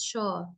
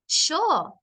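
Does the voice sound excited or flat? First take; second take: flat; excited. First: Said in a level voice without emphasis. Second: Said with energy, words pushed strongly. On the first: The speaker is not interested. The speaker calls it wrong. "It doesn't sound like I'm interested" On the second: The speaker really wants to do it. The speaker calls it right. "really push it like you're excited"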